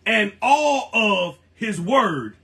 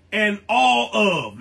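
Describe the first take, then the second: First: Slow, deliberate stress on "all of his word"; emphatic. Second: Said in the usual way. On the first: Real, not acted. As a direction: lean hard on ALL, drawing out "all of", then land "his word". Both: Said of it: "let me say that with emphasis".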